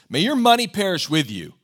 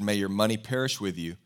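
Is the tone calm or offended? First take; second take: offended; calm. First: It is said in an offended, angry tone. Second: It is read in a calm, plain tone.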